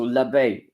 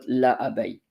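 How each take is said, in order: First: The article's vowel is dropped and joined on. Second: The article's vowel is kept as a separate syllable. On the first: The speaker calls it right. "so l'abeille" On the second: The speaker calls it wrong. "and not la abeille"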